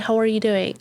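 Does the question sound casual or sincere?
casual. It is said as a quick, casual greeting. The asker is only being polite in passing. "It's not like that"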